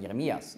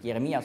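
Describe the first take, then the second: First: "Jeremias" closed with an s; "Jeremias", ending in -ias; Greek-style final S. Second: "Jeremia" ending on an open a; "Jeremia", vowel-final -ia; without final S. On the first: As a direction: say "Jeremias" with the s added after -ia. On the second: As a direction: say "Jeremia" with no s at the end. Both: Shown as a demonstration. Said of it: "noch ein S anhängen".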